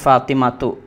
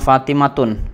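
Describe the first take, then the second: First: The name ends on a vowel, no n. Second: The name ends with an added n sound. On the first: The speaker calls it right. "tetapi Fatimatu, nggak ada tanwinnya" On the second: The speaker calls it wrong. "kita nggak bilang Fatimatun"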